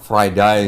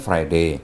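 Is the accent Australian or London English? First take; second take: Australian; London English. First: It is said in an Australian accent. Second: It is said in a London English accent.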